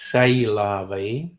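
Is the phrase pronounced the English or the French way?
English. It is said with an anglicized pronunciation. The speaker calls it wrong.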